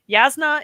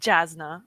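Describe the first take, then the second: First: The name begins with a Y sound. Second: The name begins with a J sound. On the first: The speaker calls it right. "Yasna is not Jasna" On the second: The speaker calls it wrong. "I used to mispronounce"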